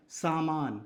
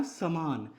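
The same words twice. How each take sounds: First: सामान with a long saa at the start; long first vowel. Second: समान with a short sa at the start; short first vowel. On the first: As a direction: hold both aa vowels in सामान. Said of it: "यहाँ स के साथ आ आया है". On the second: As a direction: clip only the first vowel of समान, then long maan. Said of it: "स के साथ अ". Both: Shown as a demonstration.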